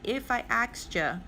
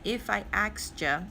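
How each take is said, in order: First: The final 'you' is reduced to 'ya'. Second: The final 'you' is reduced to 'ya'.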